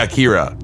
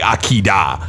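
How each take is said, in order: First: The middle consonant is an English-style r. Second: The middle consonant is a quick tap. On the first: It is the everyday English way of saying the name. "I say Akira when I say it" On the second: It copies how Japanese speakers say the name. "I don't say Akida"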